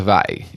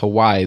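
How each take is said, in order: First: The middle consonant is a V sound. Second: The middle consonant is a W sound. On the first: "They pronounce it with a V" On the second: "the way that my Montgomeryism comes out"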